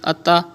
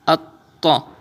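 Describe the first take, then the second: First: The doubled t is said plainly, without extra force. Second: The doubled t is said with strong, forceful emphasis. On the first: The speaker calls it wrong. "it's normal. It's not emphasis. It's not stress" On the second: The speaker calls it right. "read with emphasis"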